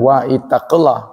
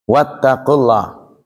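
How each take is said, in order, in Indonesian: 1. Vokal awal dari ittaqu dibaca terpisah. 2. Vokal awal dihilangkan dan kedua kata menyatu. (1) "Jadi bukan wa ittaqullah" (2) "tapi wattaqu"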